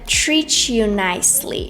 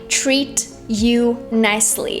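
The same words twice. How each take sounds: First: Treat and you merge with a ch sound. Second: Treat and you are said as separate words. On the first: "She connected treat and you. ... she added this quick ch sound" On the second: "She didn't say treat you nicely"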